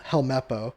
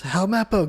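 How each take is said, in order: First: Said in the usual way. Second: Yelling a name. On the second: Retold or imitated. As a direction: call him out from the ship. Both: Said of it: "yells for El-, Helmeppo".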